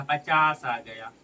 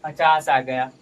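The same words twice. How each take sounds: First: Slow, drawn-out statement of the answer; slow reveal. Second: पचास आ गया said much louder, firmly; emphatic repeat. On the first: Teacher reveals the answer to the class, slowly. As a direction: let each word land slowly. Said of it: "teacher reveals the answer". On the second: Teacher repeats the answer to students, loud and firm. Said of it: "teacher repeats answer emphatically". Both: Shown as a demonstration.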